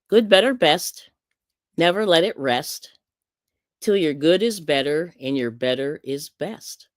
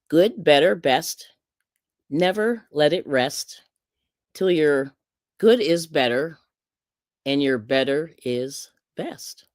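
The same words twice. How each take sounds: First: It is read at a faster pace. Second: It is read at a slower pace.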